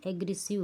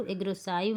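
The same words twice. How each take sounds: First: Said in the usual way. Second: "एग्रेसिव" with its ending said like English "five"; wrong pronunciation demo. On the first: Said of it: "यहाँ पे यू हो जाता है". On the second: Shown as a demonstration. Teacher warns pupils against misreading, "एग्रेसिव" mispronounced as "aggres-SAIV". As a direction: say the last syllable of "एग्रेसिव" as "saiv", long i as in "eye". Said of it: "इसको एग्रेसिव नहीं पढ़िएगा".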